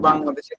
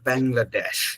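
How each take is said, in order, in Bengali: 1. এটা খাঁটি বাংলা উচ্চারণে বলা হয়েছে। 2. এটা ব্রিটিশ ঢঙের উচ্চারণে বলা হয়েছে। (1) "আমরা বাংলাদেশকে বাংলাদেশে বলবো" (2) "ব্রিটিশদের মতো আমরা বাংলাদেশ বলবো না"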